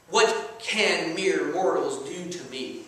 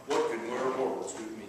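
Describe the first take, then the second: First: Slow, lower, measured challenge; cocky psalmist, dropping in pitch and taking his time; cocky David. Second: Deep, hushed movie-hero voice; low, softer impression of a mythic hero; Thor. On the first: Acted. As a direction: recite it slowly as a bold challenge. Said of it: "He was cocky". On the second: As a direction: drop low like a Marvel superhero. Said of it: "I can see Thor saying something like that".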